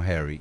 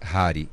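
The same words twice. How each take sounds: First: The name is said in an English way. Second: The name is said in an Austrian way. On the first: The speaker calls it wrong. "e não Harry" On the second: The speaker calls it right. "como a minha descendência é austríaca, a pronúncia é Harry"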